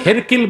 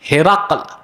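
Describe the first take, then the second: First: The name ends with a 'kil' sound. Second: The name ends with a 'kal' sound. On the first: The speaker calls it wrong. "কেউ কেউ হেরকিল বলেছে" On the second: The speaker calls it right. "শুদ্ধ উচ্চারণ হচ্ছে হেরাকল"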